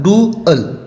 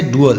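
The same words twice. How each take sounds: First: डुअल said as two clear vowels, डु then अल, pitch raised; teacher shows the class डुअल with both vowels sounded separately; separate vowels in dual. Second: Said in the usual way. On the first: Shown as a demonstration. पिच ऊँची, डुअल के दोनों स्वर अलग-अलग. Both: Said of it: "दोनों का उच्चारण जो है अलग-अलग हो रहा है".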